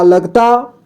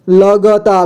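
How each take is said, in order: First: Said in the usual way. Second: "लगता" split as la-ga-taa; beginner's reading of "लगता" as la-ga-taa; sounded out letter by letter. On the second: Shown as a demonstration. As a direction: voice the ga separately in "लगता". Teacher sounds out, then reads whole.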